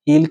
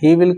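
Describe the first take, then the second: First: It is said as one short contracted syllable. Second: It is said as two separate full words.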